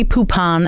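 The name is said with a Jersey accent. The speaker calls it wrong. "I know you're going to correct my Jersey pronunciation here"

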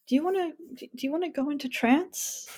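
The question sounds hesitant and unsure. The speaker is unsure and just trying something out. "somebody who might not be confident doing a formal induction"

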